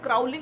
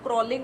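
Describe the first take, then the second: First: The first vowel sounds like 'ow' in cow. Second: The first vowel sounds like 'aw' in saw. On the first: The speaker calls it wrong. "एक word क्राउलिंग बोला गया था" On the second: The speaker calls it right. "मैंने यहाँ पे बोला था क्रॉलिंग होता है"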